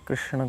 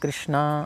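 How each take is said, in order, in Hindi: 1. नाम का अंत छोटे स्वर से होता है। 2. नाम का अंत लंबे a स्वर से होता है।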